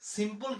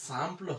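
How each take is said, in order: First: It is read like the English word simple. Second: It starts with a nasal 'sam' sound. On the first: The speaker calls it wrong. "লেখা তো একরকম" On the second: The speaker calls it right. "উচ্চারণ হয়ে গেল সাম্পল"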